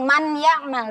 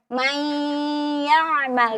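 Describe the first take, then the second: First: The n sound is pronounced clearly before ya. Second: The n merges into ya with a long nasal sound. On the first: The speaker calls it wrong. "tidak dibaca dengan man ya'mal" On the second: The speaker calls it right. "tapi dibaca dengan mai ya'mal, disertai dengan gunnah yang kita panjangkan atau naik suaranya ke hidung"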